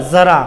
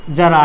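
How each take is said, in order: First: ज़रा said with a buzzing z, za-ra; z with nukta. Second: जरा said with a hard j, like English jar; plain j sound. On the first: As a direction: start ज़रा with a clear z, not j. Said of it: "हमने लिखा ज़रा". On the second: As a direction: start जरा with a clear j, ja-ra. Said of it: "हिंदी शब्द जरा". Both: Shown as a demonstration.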